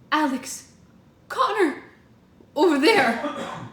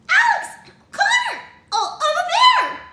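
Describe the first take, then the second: First: It is said in a normal voice. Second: It is said high-pitched and squeaky.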